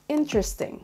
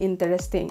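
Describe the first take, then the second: First: One middle syllable is dropped from the word. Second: Every syllable is pronounced, including the middle one. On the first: The speaker calls it right. "meron tayong tinanggal na syllable" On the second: The speaker calls it wrong. "Hindi interesting"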